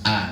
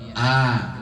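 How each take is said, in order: First: The vowel is said plainly with a natural opening. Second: The vowel is drawn out with an overly wide mouth. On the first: The speaker calls it right. "biasa a" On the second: The speaker calls it wrong. "bukan berlebihan a"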